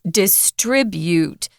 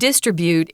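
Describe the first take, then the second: First: The stress is on the 'tri' syllable. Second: The stress is not on the 'tri' syllable. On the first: The speaker calls it right. "heavy accent is on the tr" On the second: The speaker calls it wrong. "it's not distribute"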